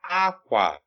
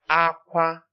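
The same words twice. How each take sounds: First: The first syllable is high, the second low. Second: Both syllables are said on a high tone. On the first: It means cloth. "High tone, low tone" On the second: It means cry. "the next one is high tone"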